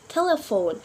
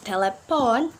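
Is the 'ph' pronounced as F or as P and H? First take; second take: F; P and H. First: The 'ph' is said as an F sound. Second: The 'ph' is said as separate P and H. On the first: The speaker calls it right. "but we pronounce telephone" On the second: The speaker calls it wrong. "we not pronounce telephone"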